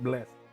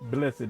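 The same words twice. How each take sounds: First: The word is said the plain way. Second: The word is said the Southern way. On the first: The speaker calls it wrong. "not blessed" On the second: The speaker calls it right. "That's how you say it in, in Southern. Blessed"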